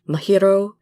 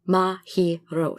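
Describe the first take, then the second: First: One syllable is stressed more than the others. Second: All syllables get equal weight, none stressed. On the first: The speaker calls it wrong. "stress certain syllables or group the letters in certain ways" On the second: The speaker calls it right. "All the syllables should be equal"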